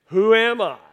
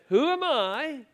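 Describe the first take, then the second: First: Said in the usual way. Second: High, small mock-plaintive Moses; mock whiny Moses. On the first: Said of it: "Say it with me". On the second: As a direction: play Moses as a bewildered little man, pitched up. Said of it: "let me translate that for you".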